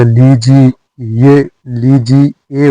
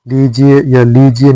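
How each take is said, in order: First: लीजिए slowly, with a separate ए; correct ending. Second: लीजिए with the ending run together; wrong ending. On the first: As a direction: draw out लीजिए syllable by syllable. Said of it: "होता है". (लीजिए धीरे, ए अलग) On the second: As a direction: say लीजिए quickly, ending slurred. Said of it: "नहीं होता". (लीजिए का अशुद्ध अंत) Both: Shown as a demonstration.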